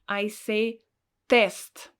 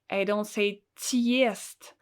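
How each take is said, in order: First: The first consonant is hard, plain 'te'. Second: The first consonant is soft, like 'tye'. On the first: The speaker calls it right. "I pronounce it really strong, so it's really hard" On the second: The speaker calls it wrong.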